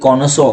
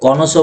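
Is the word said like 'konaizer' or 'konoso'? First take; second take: konoso; konoso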